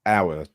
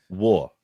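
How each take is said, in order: First: Said in the usual way. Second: "war" said as the word war, for "our"; Geordie war for our. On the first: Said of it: "instead of using". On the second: Shown as a demonstration. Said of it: "he says".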